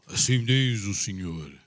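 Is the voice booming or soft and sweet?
booming. It is said in a booming, thunderous voice.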